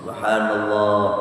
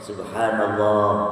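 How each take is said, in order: No difference in how they are said.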